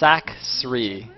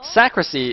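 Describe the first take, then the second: First: The name is said with two syllables. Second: The name is said with three syllables. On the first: The speaker calls it right. "if you look at the exact spelling, it's" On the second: The speaker calls it wrong. "is how I always pronounce this"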